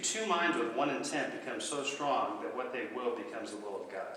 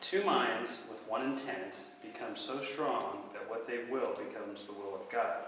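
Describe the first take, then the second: First: It is said at a quicker pace. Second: It is said at a slower pace.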